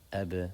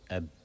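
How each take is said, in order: First: The final b is released with a small echoing bounce. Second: The final b is closed with no audible release. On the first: The speaker calls it right. "we do something called a qalqala" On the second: The speaker calls it wrong. "otherwise you wouldn't hear it"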